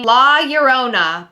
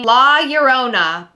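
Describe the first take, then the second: First: The name is pronounced the Spanish way. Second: The name is pronounced the Spanish way.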